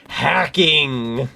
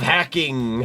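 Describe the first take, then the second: First: The word is said very loudly. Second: The word is said at normal volume.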